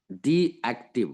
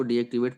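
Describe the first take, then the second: First: "डीएक्टिव" said slowly, ending on -tiv; "डीएक्टिव" drawn out as dee-active, no final -ate; careful correct reading. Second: "डीएक्टिवेट" with an added -ate ending; "डीएक्टिवेट" read as dee-activate, at normal pace; common misreading. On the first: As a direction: stretch out "डीएक्टिव", stopping at the v. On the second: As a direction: end "डीएक्टिवेट" on -vate, not -tiv. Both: Shown as a demonstration. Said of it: "कुछ लोग इसको डीएक्टिवेट पढ़ते हैं".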